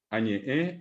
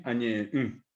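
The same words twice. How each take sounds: First: Said in the usual way. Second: Añeé then hummed nasal mm; negated with nasal mm. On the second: Shown as a demonstration. Teacher shows negation: añeé then nasal mm. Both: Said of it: "le pongo la mm nasal".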